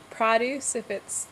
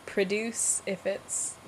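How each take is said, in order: First: "Produce" stressed first, PROH-duce; "Produce" with prah at the front, stress first; noun produce. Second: "Produce" with a weak first syllable, pruh-DUCE; verb produce. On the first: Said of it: "like, fruit and vegetables". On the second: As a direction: stress the end of "Produce", slow. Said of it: "the verb to produce". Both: Shown as a demonstration.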